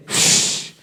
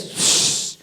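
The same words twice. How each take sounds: First: A firmer unvoiced shh like a blade drawn with force; forceful sword-drawing shh; stronger sword hiss. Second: A soft unvoiced shh like a blade leaving its sheath; soft sword-drawing shh; sword drawn hiss. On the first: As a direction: draw the sword again, harder. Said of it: "con mucho más fuerza". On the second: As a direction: draw the sword with a quiet shh. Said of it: "¿Se acuerdan el shh?".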